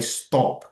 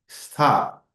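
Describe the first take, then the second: First: The vowel is a rounded oh sound. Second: The vowel is an open ah sound. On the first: The speaker calls it wrong. "não é stop, como dizem até estudantes avançados" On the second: The speaker calls it right. "tem uma sonoridade parecida com a sonoridade que é a letra O em inglês"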